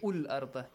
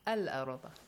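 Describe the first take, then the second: First: The word begins with a u vowel. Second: The word begins with an a vowel. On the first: The speaker calls it wrong. "Do not say Ul Arda" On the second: The speaker calls it right. "It always takes a Fatha"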